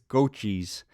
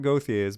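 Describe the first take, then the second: First: The name is said with a 'ch' sound. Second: The name is said with a 'th' sound. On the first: The speaker calls it right. "but it's Gochi's" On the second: The speaker calls it wrong. "I've been told that it's not Gauthier's"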